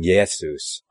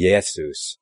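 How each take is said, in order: First: The name has a Greek-sounding pronunciation. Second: The same.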